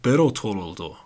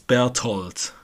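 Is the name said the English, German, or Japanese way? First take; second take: Japanese; German. First: The name is said with a Japanese pronunciation. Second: The name is said with a German pronunciation. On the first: The speaker calls it wrong. "Japanese people go like Berthold" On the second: The speaker calls it right. "No, not with the TH. I would say it's Berthold"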